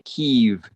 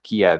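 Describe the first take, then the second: First: The name is said the native, non-English way. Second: The name is said the usual English way. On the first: "I don't say" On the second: "I pronounce it using English"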